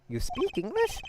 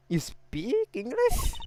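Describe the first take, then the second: First: Higher, rising surprised question. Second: Very slow, higher, stretched-out rising question; drawn-out disbelief. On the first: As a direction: ask it in quick surprise. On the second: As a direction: drag every word out in disbelief. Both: Acted. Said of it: "I mean".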